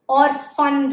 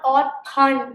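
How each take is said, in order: First: The middle consonant is an f sound. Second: The middle consonant is a p sound. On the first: The speaker calls it right. "P H letter is if sound" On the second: The speaker calls it wrong. "not or pun, it's not like that"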